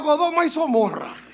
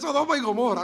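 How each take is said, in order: First: The first name starts with G, second with S. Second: The first name starts with S, second with G. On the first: The speaker calls it wrong. "una señora me dijo" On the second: The speaker calls it right. "Será de Sodoma y Gomorra"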